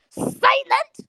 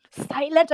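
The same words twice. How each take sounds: First: Very high, incredulous outburst; outraged, high-pitched questioning. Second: Said in the usual way. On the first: Real, not acted. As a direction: shoot the pitch right up in disbelief. Incredulous question to silent students.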